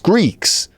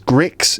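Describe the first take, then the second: First: The vowel is a long 'ee' sound. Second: The vowel is a short 'i' sound. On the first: The speaker calls it right. "It's Greeks" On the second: The speaker calls it wrong. "No one says Gricks"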